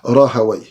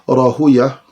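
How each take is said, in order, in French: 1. Le nom se termine par un son « away ». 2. Le nom se termine par un son « uya ». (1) "Les savants de la langue arabe disent Rahaway" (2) "Les savants du hadith disent Rahuya"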